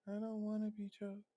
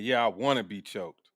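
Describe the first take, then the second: First: Soft, breathy-free hushed quote of her; quoting her. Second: Low, sultry mock of the woman; mocking her. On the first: Retold or imitated. Repeat her soft reply to the caller, hushed. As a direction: say it soft and small. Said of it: "your response is". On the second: Mock her line to the caller, lightly sultry. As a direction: lightly mimic her wanting it. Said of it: "The way she said it".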